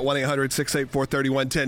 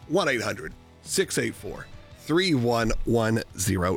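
First: The number is said quickly. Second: The number is said slowly.

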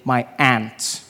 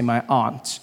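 First: Aunt is said like the insect ant. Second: Aunt is said like ahnt, not ant.

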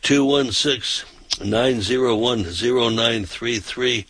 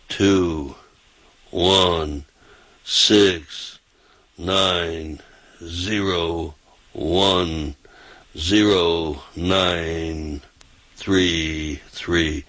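First: The number is said fast. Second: The number is said slowly.

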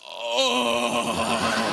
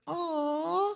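First: It is said in a coarse, rough voice. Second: It is said in a soft, sweet voice.

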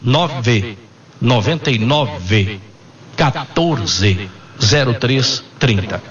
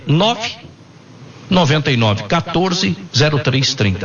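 First: It is said very slowly. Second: It is said at normal speed.

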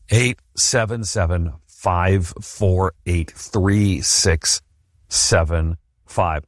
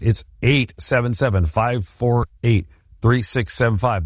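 First: The number is said slowly. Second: The number is said fast.

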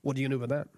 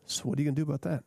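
First: It sounds harsh and accusing. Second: It sounds gentle and sympathetic.

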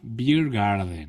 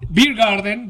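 First: It is said slowly. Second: It is said at normal, fast pace.

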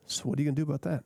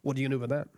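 First: It is said in a caring, empathetic tone. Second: It is said in a confrontational, accusing tone.

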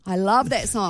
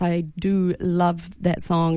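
First: It is said with passion and feeling. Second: It is said flatly, without feeling.

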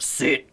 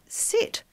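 First: It is said in a harsh, commanding tone. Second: It is said nicely, with a higher pitch.

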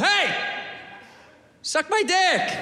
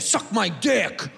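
First: It is said in a friendly, nice tone. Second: It is said in a hostile, negative tone.

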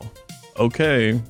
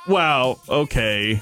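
First: It sounds disappointed. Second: It sounds sarcastic.

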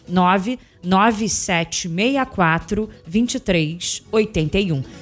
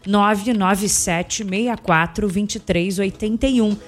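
First: The number is said slowly. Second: The number is said at normal speed.

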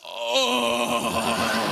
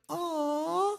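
First: It is a coarse, rough growl. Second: It is a soft, sweet coo.

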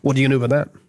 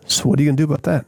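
First: It sounds harsh and accusing. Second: It sounds warm and empathetic.

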